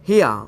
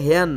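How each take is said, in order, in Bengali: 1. শব্দটি 'hia' এর মতো শোনাচ্ছে। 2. শব্দটি 'hair' এর মতো শোনাচ্ছে। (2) "আগে এটাকে হেয়ার বলতাম এটা হেয়ার না"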